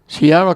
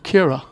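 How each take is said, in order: First: The name is said following its written spelling. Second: The name is said with the sound Kira. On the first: The speaker calls it wrong. "I was pronouncing Ciara Collins' name the way it was written" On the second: The speaker calls it right. "they pronounce it differently. It's Kira"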